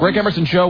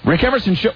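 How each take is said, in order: First: It is said in a brisk, businesslike tone. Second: It is said in a warm, flirtatious tone. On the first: The caller is a man. "you could tell if it was a guy. It was like" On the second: The caller is a woman. "But if it was a woman, it would be like"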